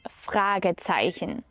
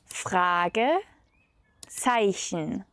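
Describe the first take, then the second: First: The word is said in one smooth piece. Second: The word is split with a pause between parts.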